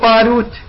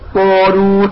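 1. يبدو المقطع الأول خفيفاً ورفيعاً. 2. يبدو المقطع الأول ثقيلاً ومليئاً.

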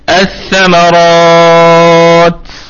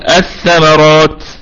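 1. يُمَدّ المد ست حركات. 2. يُمَدّ المد حركتين.

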